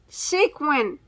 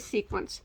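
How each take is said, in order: First: The word ends with a plain 'in' sound. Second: The word ends with an 'ents' sound. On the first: The speaker calls it right. "so sequin" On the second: The speaker calls it wrong. "I say sequence. I know that's not right"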